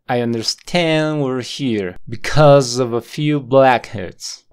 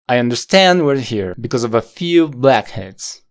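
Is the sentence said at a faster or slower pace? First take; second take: slower; faster. First: The sentence is said at a slower pace. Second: The sentence is said at a faster pace. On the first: "No hay pausas entre medio" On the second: "Ahora lo vamos a decir un poco más rápido"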